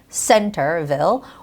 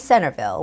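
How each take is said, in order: First: The T is a crisp, full T. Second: The T is softened. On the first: "the stress goes on the first syllable" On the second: "with the soft T sound"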